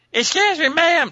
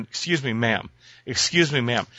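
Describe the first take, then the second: First: Very high, loud squeaky imitation of Elise. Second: Said in the usual way. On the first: Man mimics wife Elise calling to stranger, high squeaky. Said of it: "you know her squeaky voice". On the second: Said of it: "tapping her on the shoulder going".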